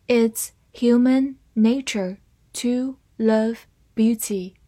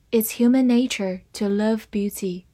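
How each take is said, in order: First: Slow reading, words stretched out. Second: Said in the usual way. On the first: Shown as a demonstration. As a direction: read it slowly for the class. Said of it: "好，慢慢来读". (慢速朗读) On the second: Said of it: "慢慢来读".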